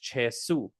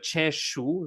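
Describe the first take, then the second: First: The second word begins with an s sound. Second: The second word begins with a sh sound. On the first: This is the casual pronunciation. "or in more casual language" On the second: This is the proper pronunciation. "if we pronounce it properly"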